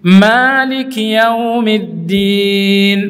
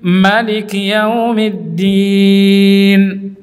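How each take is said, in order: First: The first vowel of Maliki is held long. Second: The first vowel of Maliki is kept short. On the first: "Boleh Anda baca dengan panjang" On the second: "Boleh dibaca pendek juga"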